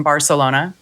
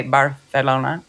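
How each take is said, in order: First: Said in the usual way. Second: Barcelona with a Spanish rolled r and no s sound, bar-eh-LO-na; a self-mocking attempt at a Spanish accent; Spanish pronunciation. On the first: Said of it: "Or should I say". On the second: Shown as a demonstration. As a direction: try Barcelona the Castilian way. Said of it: "I so suck at accents".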